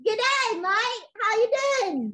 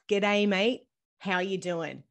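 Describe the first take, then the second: First: Eager, louder go at "G'day, mate. How you doing?" with a mock Australian lilt; a kid proudly copying the Australian greeting; child's try at Aussie slang. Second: Slow, careful Australian "G'day, mate. How you doing?"; Aussie greeting, said slowly. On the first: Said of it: "Could you say that for us?". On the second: Shown as a demonstration. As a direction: model the Australian slang slowly for a child to copy. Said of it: "I'll say it slowly".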